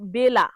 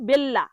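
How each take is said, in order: First: The L sound is short and single. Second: The L sound is long and doubled. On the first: The speaker calls it right. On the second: The speaker calls it wrong.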